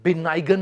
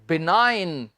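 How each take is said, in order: First: A g sound is pronounced before the n. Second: The g is silent before the n. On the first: The speaker calls it wrong. "इसे आपने बिनाइगन नहीं बोलना" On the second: The speaker calls it right. "जी इसमें students हम नहीं उच्चारेंगे, तो ये है बिनाइन"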